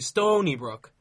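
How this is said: The stress falls on the first word. "emphasize the stony part"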